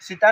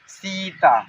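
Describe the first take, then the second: First: The first vowel is short and clipped. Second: The first vowel is held long. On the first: The speaker calls it wrong. "सीता नहीं" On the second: The speaker calls it right. "देर तक रुकना है"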